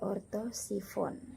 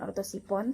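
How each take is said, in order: First: The consonant before the last syllable is f. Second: The consonant before the last syllable is p. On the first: The speaker calls it right. "tetapi ortosifon" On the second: The speaker calls it wrong. "bukan ortosipon"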